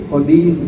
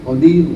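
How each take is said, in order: The two takes are said the same way.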